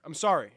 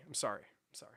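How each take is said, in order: First: Said in the usual way. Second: Fading whisper. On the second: Acted. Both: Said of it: "I'm trolling".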